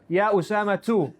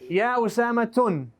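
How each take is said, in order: First: The name ends in a plain u vowel. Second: The name ends in u followed by n. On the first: The speaker calls it right. "So the correct answer is Ya Usama two" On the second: The speaker calls it wrong. "It can't be Usama tun"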